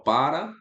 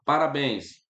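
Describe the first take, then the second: First: "parabéns" broken into "para", a long pause, then "béns"; syllable-by-syllable demo. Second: Said in the usual way. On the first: Shown as a demonstration. Teacher showing students the strong syllable, "parabéns" split before "béns". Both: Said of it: "A sílaba forte é essa daqui".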